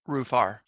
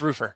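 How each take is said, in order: First: The name ends with a clear 'far' sound. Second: The name ends with a weak 'fer' sound. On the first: The speaker calls it wrong. "No, I'm just fucking with you" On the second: The speaker calls it right. "It's Roofer"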